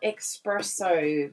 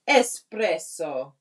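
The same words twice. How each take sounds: First: The word begins with an 'ex' sound. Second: The word begins with an 'ess' sound. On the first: The speaker calls it wrong. "It's not espresso. We're not getting a fast coffee" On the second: The speaker calls it right. "Yes, it has an S"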